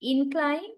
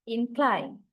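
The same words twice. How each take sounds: First: Incline as a noun, IN-cline, first syllable stressed. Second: Incline as a verb, in-CLINE, second syllable stressed; weight on CLINE in incline, falling tone. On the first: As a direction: lean on IN in Incline, ending on a rise. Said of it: "noun set always we stress the first". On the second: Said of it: "verb set we always stress the second". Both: Shown as a demonstration.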